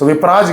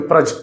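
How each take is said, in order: First: The last syllable has a long vowel. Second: The last syllable has a short vowel. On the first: The speaker calls it wrong. "విప్రాజ్ కాదు" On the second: The speaker calls it right. "Correct pronunciation"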